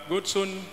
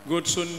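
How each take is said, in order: Both takes have the same delivery.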